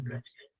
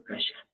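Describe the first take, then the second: First: "Cachán" with a hard ch, kach-; Apurímac pronunciation. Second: "Cachán" with a soft sh, as ka-shan; Cusco pronunciation. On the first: Teacher gives the form used in Apurímac, "Cachán" with ch. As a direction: keep a crisp ch in "Cachán", softer volume. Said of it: "Apurímac". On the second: Teacher gives the form used in Cusco, "Cachán" said ka-shan. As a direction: soften the ch of "Cachán" to sh. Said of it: "en Cusco". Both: Shown as a demonstration.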